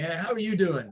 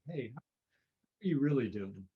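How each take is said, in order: First: The greeting sounds hurried and distracted. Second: The greeting sounds calm and caring.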